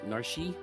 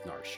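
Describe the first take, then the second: First: The name is said with two syllables. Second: The name is said with one syllable. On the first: The speaker calls it wrong. "When I first started playing, it was Narshi" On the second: The speaker calls it right. "now I know it's Narsh"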